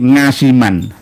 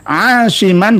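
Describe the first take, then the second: First: It begins with an ng sound. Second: It begins with a throaty ain sound. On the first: The speaker calls it wrong. "orang Jawa kadang lesan atau lidahnya itu kurang fasih" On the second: The speaker calls it right. "mengeluarkan makhraj aslinya ain. Jadi asiman aslinya"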